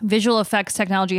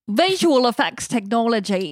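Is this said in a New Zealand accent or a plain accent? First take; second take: plain; New Zealand. First: It is said in her ordinary accent. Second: It is said in a New Zealand accent.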